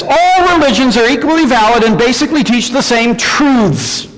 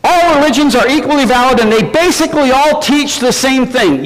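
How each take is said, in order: First: Said in the usual way. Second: Higher, sing-song sarcastic restatement; mocking the objection. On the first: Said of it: "objection number one today is this". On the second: Shown as a demonstration. Preacher repeating the objection to the congregation, sarcastic. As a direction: parrot it back with mock sincerity. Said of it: "Yeah, right".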